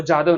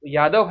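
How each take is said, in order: First: "जादव" begun with j in place of y; hard j opening on "जादव"; wrong J sound. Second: "यादव" with a y glide at the start; correct Y sound. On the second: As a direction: say "यादव" with y, not j. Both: Shown as a demonstration. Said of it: "वो जादव नहीं है".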